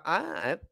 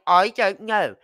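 First: "I don't know" swallowed, quiet and blurred; quick mumbled Scottish version. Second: "I don't know" mashed into one slurred word, "I dunno"; run-together Scottish mumble. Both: Retold or imitated. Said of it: "You just literally run the words all together".

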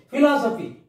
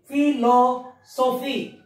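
First: Said in the usual way. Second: PHILOSOPHY slowly as "phi, lo, so, phy"; separate syllables. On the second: Shown as a demonstration. Teacher dividing a word for pupils, slow and separated. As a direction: draw out and space each part of PHILOSOPHY. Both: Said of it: "these are all trisyllable words".

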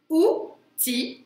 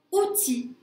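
First: "Outil" split into ou, pause, ti; syllable by syllable. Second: Said in the usual way. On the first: Shown as a demonstration. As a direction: say "Outil" in two slow, separate syllables. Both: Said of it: "a bien deux syllabes".

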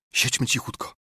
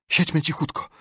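First: Breathy unvoiced whisper of siedźmy cichutko. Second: Scared urging. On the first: Repeated as whisper. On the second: Acted. First take, frightened.

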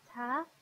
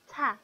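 First: Said in the usual way. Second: «ت» said tense and stronger, no puff of air; tensed t. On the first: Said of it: "فرق تلفظ رو ببینید". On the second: Shown as a demonstration. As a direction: give «ت» a hard, tense onset. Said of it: "تأکیدم بیشتر شد". («ت» سفت و تأکیددار)

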